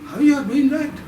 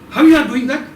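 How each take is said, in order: First: The sentence is spoken in a doubtful tone. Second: The sentence is spoken in a surprised tone. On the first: "Then doubt"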